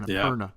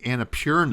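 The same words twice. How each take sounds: First: The 'pur' syllable does not sound like 'pure'. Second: The 'pur' syllable sounds like the word 'pure'. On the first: The speaker calls it right. "but it's" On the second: The speaker calls it wrong. "P U R and I think like pure, so I always think Annapurna"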